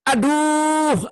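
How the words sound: It is said in a harsh, loud voice. The person is in pain. "kalau dengan nada keras"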